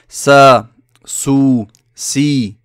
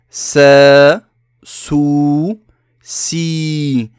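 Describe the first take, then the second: First: The long vowels are held only a normal length. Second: The long vowels are drawn out in exaggeration. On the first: "on se suffira dans la langue de dire sa, sou, si" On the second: "lorsque je prononce, j'exagère, hein, pour bien que vous entendiez la prolongation"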